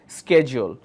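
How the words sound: It is said with an American pronunciation. "American English pronounces that as"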